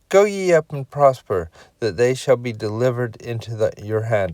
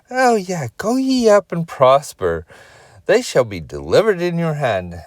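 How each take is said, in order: First: It is said in a flat, neutral tone. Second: It is said in a sarcastic tone.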